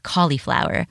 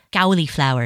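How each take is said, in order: First: Said in the usual way. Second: "cauliflower" with a cow-like first syllable; "cauliflower" mispronounced with an "ow" at the start; childhood mispronunciation. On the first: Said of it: "instead of cauliflower". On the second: Shown as a demonstration. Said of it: "I used to always say".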